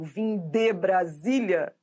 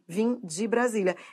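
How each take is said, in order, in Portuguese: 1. A palavra de é pronunciada por completo e com cuidado. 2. A palavra de é reduzida e fraca. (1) "Se você forçar a barra e falar assim" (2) "se você relaxar, você vai perceber que esse de vira de no discurso"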